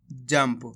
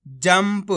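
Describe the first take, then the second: First: जंप with a clear half म, जम्प; half म sounded. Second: Said in the usual way. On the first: Shown as a demonstration. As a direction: say जंप with the lips closing on म before प. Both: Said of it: "आधा माँ का उच्चारण करा है जंप".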